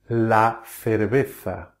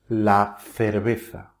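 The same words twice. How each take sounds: No difference in how they are said.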